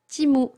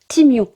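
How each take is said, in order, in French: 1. Le nom finit par un son oo simple. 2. Le nom finit par un son yoo. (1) "le U est un OU" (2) "Totalement faux"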